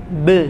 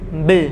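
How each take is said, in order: Both takes have the same delivery.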